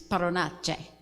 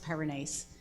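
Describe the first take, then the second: First: The surname is said in its careful, original form. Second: The surname is said in its casual, everyday form. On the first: This is the true pronunciation of the name. The speaker calls it right. "the actual pronunciation of my name is" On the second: This is how she usually introduces herself. The speaker calls it wrong. "I've always introduced myself as"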